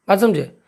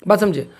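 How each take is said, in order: The two takes are said the same way.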